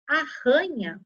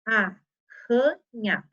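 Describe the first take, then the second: First: Said in the usual way. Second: "arranha" drawn out very slowly as ar-ra-nha; teacher separating "arranha" into syllables, slow; syllable split. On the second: Shown as a demonstration. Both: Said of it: "cada R com a sua vogalzinha".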